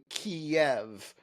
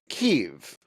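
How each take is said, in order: First: The word is spread over two syllables. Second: The word is squeezed into one syllable. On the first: This is the Russian form. "which is the Russian pronunciation" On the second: This is an Americanized form. "they reduce it to one syllable"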